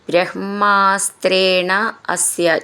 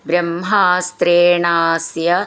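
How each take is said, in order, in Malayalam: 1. ഈ രണ്ട് വാക്കുകൾ വേർതിരിച്ചാണ് പറയുന്നത്. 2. ഈ രണ്ട് വാക്കുകൾ ഒന്നായി ചേർത്താണ് പറയുന്നത്.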